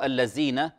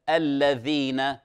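First: The middle consonant is a z sound. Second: The middle consonant is a dh sound. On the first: The speaker calls it wrong. "فقد تبدل زايا وتقال الذين، وهذا خطأ" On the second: The speaker calls it right. "إذا عرف مخرج الذال"

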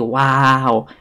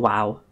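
First: The vowel is stretched out long. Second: The vowel is short and quick. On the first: "I stretch it out and say wow" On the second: "instead of saying wow"

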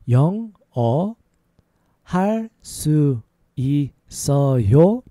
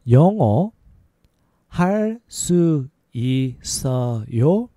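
Both takes have the same delivery.

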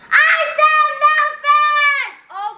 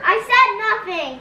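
First: It is said very loudly, almost yelled. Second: It is said at normal volume.

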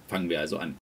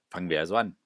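First: The voice sounds thin and rather quiet. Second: The voice sounds louder with more body. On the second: "Kabelmikrofon gehört. Es wurde lauter, man hat etwas mehr verstanden"

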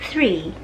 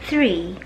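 The two takes are said the same way.

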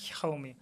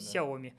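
First: The word begins with a harsh kh sound. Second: The word begins with a soft s sound. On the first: The speaker calls it wrong. "мы же не говорим хаоми" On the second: The speaker calls it right. "мы говорим сяоми"

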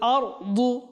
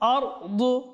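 The two takes are said the same way.

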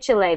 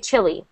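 First: The word ends in an 'eh' vowel sound. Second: The word ends in an 'ee' vowel sound. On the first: The speaker calls it wrong. "They will not say Chile" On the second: The speaker calls it right. "They will say chili"

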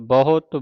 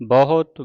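The two takes are said the same way.

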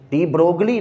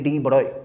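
First: The g and l sounds are clearly pronounced. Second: The g and l sounds are left silent. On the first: The speaker calls it wrong. "डी ब्रोगली नहीं है ये" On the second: The speaker calls it right. "जी और एल दोनों नहीं पढ़ते, दोनों silent होते हैं"

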